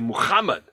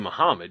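First: The h is harsh and rasped in the throat. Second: The h is soft, with no throat friction. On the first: The speaker calls it right. "You say Muhammad. I mean, it means something" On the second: The speaker calls it wrong. "you don't say Muhammad"

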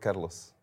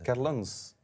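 First: The name is said without the n sound. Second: The name is said with the n sound. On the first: The speaker calls it wrong. "Carlens eigenlijk" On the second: The speaker calls it right. "Sta je erop dat die N wordt uitgesproken?"

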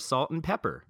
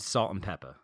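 First: The last word ends with an r sound. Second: The last word ends in an open ah sound. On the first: "If she had an R on the end of her name" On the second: "I pronounce words how they're spelled"

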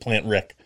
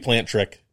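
First: The second word is heard as 'Rick'. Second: The second word is heard as 'Trick'. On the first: "I did pronounce it Plant Rick" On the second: "but it could be Plant Trick"

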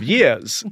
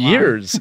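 First: It is said with a New Zealand accent. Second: It is said with an American accent. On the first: This is the speaker's original hometown way. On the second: Years abroad have changed the speaker's speech.

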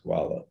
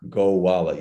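First: It is said quickly with syllables merged. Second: It is said slowly with all syllables.

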